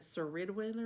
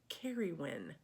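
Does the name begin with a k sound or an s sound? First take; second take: s sound; k sound. First: The name begins with an s sound. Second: The name begins with a k sound. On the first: The speaker calls it wrong. "I was pronouncing it Ceridwen or something. No" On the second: The speaker calls it right. "it's Carried Carrywin"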